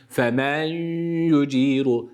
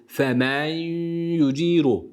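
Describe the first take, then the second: Both takes have the same delivery.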